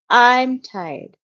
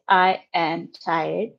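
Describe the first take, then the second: First: The verb is contracted into one syllable. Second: The verb is said in full as two words. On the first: This is the usual spoken form. The speaker calls it right. "We say I'm tired" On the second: This is not usual in speech. The speaker calls it wrong. "Usually we don't say I am tired"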